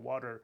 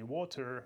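First: The middle t sounds like a soft d. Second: The middle t is a clear t. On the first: The speaker calls it right. "Т между гласными ... превращается в подобие такого д-д-д-д-д" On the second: The speaker calls it wrong. "это не"

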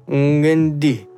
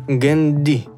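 The two takes are said the same way.

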